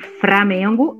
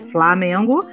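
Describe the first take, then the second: First: The first syllable is said with an R sound. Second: The first syllable is said with an L sound. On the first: "quando o fonema L é transformado em R" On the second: "ao invés de"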